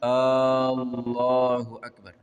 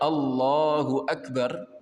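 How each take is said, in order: First: The first vowel is drawn out long. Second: The first vowel is said short. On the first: It asks whether God is the greatest. The speaker calls it wrong. "Alif yang di depan yang panjang" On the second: God is the greatest. The speaker calls it right.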